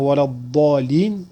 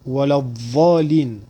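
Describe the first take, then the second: First: The emphatic consonant is a heavy d-like sound. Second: The emphatic consonant is a heavy th-like sound. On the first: It means those who have gone astray. The speaker calls it right. "au lieu de dire wala dhalin avec un bod" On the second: It refers to those in the shade. The speaker calls it wrong. "ils disent wala dhalin avec un bod"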